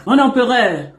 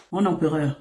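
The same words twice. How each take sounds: First: Raised, louder, teasing hail to the emperor; mock grand address. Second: Said in the usual way. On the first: Coach teasing the man she calls her emperor, mock grand. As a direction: hail him grandly, half in jest.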